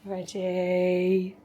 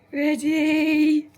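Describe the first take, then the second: First: Said in the usual way. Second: Excited call. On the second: Real, not acted. Readying the puppy for fetch.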